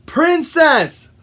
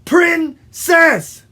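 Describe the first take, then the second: First: Princess called out high and loud; shouted correction. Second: Princess split in two, PRIN... CESS, high and loud; loud, high, separated "Prin-cess"; syllable-by-syllable shout. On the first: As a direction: shout "Princess" as one word to correct them. Frog shouts correction to woodpecker. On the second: Frog repeats it by syllables. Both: Acted.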